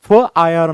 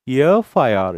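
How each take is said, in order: First: The first letter starts with an f sound. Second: The first letter starts with a vowel sound. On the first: The speaker calls it wrong. "पण आपण फ I R नाही म्हणत" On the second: The speaker calls it right. "य a sound is there"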